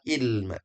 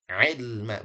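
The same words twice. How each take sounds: First: The word begins with a plain vowel. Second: The word begins with a throaty consonant. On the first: The speaker calls it wrong. "bukan ilma" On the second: The speaker calls it right.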